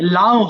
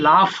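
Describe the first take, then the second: First: The word ends without an F sound. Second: The word ends with an F sound. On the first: The speaker calls it wrong. "লাও হবে মনে হবে না" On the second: The speaker calls it right. "কিন্তু এটা হবে লাফ, হবে লাস্টে ফ"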